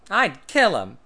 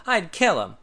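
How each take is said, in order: First: Loud, high, firm threat; loud firm declaration. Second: Outraged. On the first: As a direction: say it flat out, no doubt. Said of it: "he answered firmly". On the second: Tad outraged. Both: A narrator's reading.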